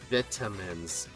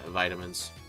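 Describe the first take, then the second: First: It is said in a British accent. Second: It is said in an American accent.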